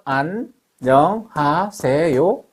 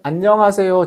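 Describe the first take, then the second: First: It is said slowly and drawn out. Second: It is said at a normal speed. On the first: This is how a weakened ear hears it. "이렇게 느리게 들릴 수도 있습니다" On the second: This is how a healthy ear hears it. "정상적으로 들리지만"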